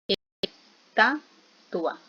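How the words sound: The word is broken into separate syllables.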